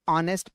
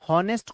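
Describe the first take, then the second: First: The word begins with a vowel, no h. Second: The word begins with an audible h sound. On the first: The speaker calls it right. "ये एच silent है" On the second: The speaker calls it wrong. "हॉनेस्ट कोई मत पढ़ना"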